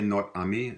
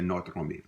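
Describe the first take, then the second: First: "notre ami" said as "not ami", the R in "notre" dropped; notre ami without the R. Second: "notre ami" with the R in "notre" sounded: "notr-ami". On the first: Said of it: "some people might just say". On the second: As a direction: let the R of "notre" roll into "ami". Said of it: "some people will say". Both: Shown as a demonstration.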